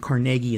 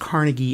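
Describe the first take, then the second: First: The name is said the Scottish way. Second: The name is said the American way. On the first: "in Scotland" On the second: "in America"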